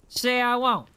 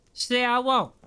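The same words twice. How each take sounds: The two takes are said the same way.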